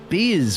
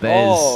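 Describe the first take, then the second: First: The name rhymes with the word beer. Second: The name has a vowel unlike beer. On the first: This is how it would be said in Australia. "That's kind of how we would pronounce it" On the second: This is the name's proper pronunciation. "that's probably the correct way of pronouncing it"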